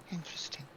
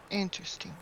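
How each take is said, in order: First: Whispered Interesting, breathless and soft; hushed, thoughtful whisper. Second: Said in the usual way. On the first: Real, not acted. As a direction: repeat it as a whisper under your breath. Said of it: "Interesting. whispered". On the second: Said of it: "Interesting. whispered repeat".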